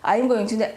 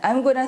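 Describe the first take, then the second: First: Going to is said in full, two words. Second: Going to is reduced to one word, gonna.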